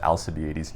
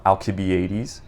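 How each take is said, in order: First: "Alcibiades" with an S sound, al-sih-bee-AY-deez; soft C. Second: "Alcibiades" with a K sound, al-kih-bee-AY-deez; hard C. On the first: Recalling what his brother corrected, "Alcibiades" with soft S. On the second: Recommending stories to readers, "Alcibiades" said with hard K. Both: Shown as a demonstration. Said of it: "I used to pronounce it".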